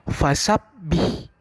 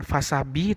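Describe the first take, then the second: First: The b sound is held briefly. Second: The b sound is short, not held. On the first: The speaker calls it right. "tapi fasabbih" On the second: The speaker calls it wrong.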